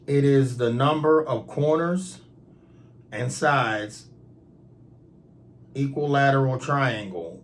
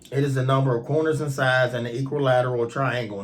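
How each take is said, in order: First: It is read at a slower pace. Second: It is read at a faster pace.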